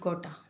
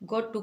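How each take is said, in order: First: The words are blended into one reduced form. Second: Both words are pronounced fully and separately.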